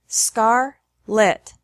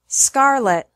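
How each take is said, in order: First: The syllables are separated by a pause. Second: The syllables run together without a pause. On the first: "once with the syllables separated" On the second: "once normally"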